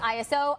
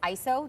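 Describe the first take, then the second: First: It is spelled out as three separate letters. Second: It is said as one two-syllable word. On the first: "the right pronunciation of this acronym is I S O" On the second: "just because it's two syllables instead of three"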